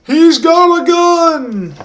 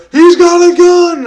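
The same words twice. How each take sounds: First: High, slow, drawn-out yell of alarm; mock alarm shout. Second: Much louder, higher, slow yelled warning; louder high shout. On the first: Teen shouting a fake warning at the fighting men, high and drawn out. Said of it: "I got the balls to go like". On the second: Retold or imitated. Teen yelling the fake warning again, louder and higher. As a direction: belt it out louder this time. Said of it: "And I say it louder".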